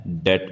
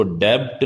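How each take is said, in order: First: डेट with the b left silent; no b at all in डेट; correct pronunciation. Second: डेब्ट with the b sounded before t; mispronounced डेब्ट, b audible; wrong pronunciation. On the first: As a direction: say डेट with only a t at the end. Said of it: "डेट बोलना है". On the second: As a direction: voice the silent b in डेब्ट. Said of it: "इसको डेब्ट नहीं बोलना है". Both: Shown as a demonstration.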